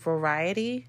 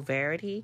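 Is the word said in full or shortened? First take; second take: full; shortened. First: The word is said in full. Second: The word is said shortened, missing a syllable. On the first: The speaker calls it right. "I'm saying it right now" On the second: The speaker calls it wrong. "but I always go verity"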